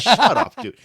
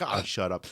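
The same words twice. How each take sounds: First: High, loud mock bark; imitated harsh shut-up. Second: Softer, offhand imitated brush-off; casual shut-up. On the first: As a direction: mimic a teammate's sudden outburst. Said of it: "told me to shut up like that". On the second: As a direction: toss it off as mild, everyday annoyance. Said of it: "Like, sometimes, like".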